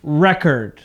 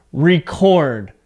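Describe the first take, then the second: First: Record as REK-erd, weight at the start; record demonstrated as a noun, REK-erd; noun stress on first syllable. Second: Record as ree-CORD, CORD long and strong; record demonstrated as a verb, ree-CORD; verb stress on second syllable. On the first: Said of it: "And as a noun". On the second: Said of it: "So my voice goes up". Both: Shown as a demonstration.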